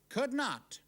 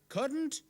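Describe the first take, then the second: First: It is said as two separate full words. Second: It is said as one contracted word. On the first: "the other way to write it" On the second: "You can hear the difference"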